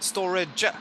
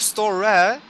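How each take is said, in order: First: The final j sound is clearly pronounced. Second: The final j sound is left off. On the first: The speaker calls it right. "storage with a j at the end" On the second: The speaker calls it wrong. "instead of store"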